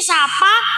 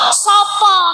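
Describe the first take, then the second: First: The vowels are pronounced as open 'a' sounds. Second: The vowels are pronounced as rounded 'o' sounds. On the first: This is how it is said locally here. "Kalau di sini" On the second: This is how it is said in Surabaya. "di Surabaya"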